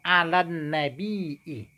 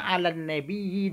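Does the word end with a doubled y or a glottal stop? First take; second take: glottal stop; doubled y. First: The word has a glottal stop before the end. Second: The word has a doubled y sound before the end. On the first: The word comes from a root meaning news. "dengan hamzah" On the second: The word comes from a root meaning to be raised in rank. "dengan tasydid ya"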